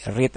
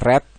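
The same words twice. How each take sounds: First: It is pronounced as the present-tense verb. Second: It is pronounced as the past-tense verb. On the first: "kata kerja kedua dari read" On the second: "adalah read, tapi tulisannya sama ya. Cuma cara bacanya saja"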